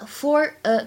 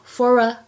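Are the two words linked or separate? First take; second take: separate; linked. First: The two words are said separately. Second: The two words run together smoothly.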